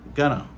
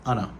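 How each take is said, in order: First: The words are reduced to gonna. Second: The words are reduced further to anna. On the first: This is casual speech. "il n'a pas utilisé going to. Il a utilisé gonna" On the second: This is even faster casual speech. "qui parle plus vite, qui pas même dit gonna. Il a utilisé Anna"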